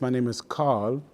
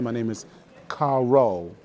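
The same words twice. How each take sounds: First: The name is said the German way. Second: The name is said the South Carolina way.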